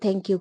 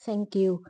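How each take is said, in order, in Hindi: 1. पहली आवाज़ साधारण t है। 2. पहली आवाज़ नरम th है। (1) "हम ती से थैंक यू कहते हैं" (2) "वो कहते हैं थैंक यू"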